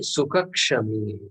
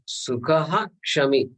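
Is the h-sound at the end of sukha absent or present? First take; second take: absent; present. First: The final h-sound of sukha is not pronounced. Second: The final h-sound of sukha is clearly pronounced. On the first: The speaker calls it wrong. "We can't say sukha kshami. It's an incorrect pronunciation" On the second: The speaker calls it right. "this visarga has to be pronounced"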